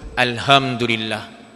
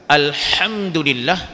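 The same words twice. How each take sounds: First: The h is a plain, soft h. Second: The h is a harsh, throaty h. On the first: The speaker calls it wrong. "kita menggunakan ha marbutah, ha yang simpul tu" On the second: The speaker calls it right. "dengan ha maftuhah, ha kecil"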